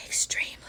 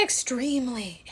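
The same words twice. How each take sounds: First: Whispered EXTREMELY; hushed, confiding repeat of EXTREMELY; whispered emphasis. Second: Said in the usual way. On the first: Real, not acted.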